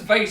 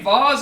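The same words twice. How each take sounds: First: The word is said the American way. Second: The word is said the speaker's home way. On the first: "America says vase" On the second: "We say vase"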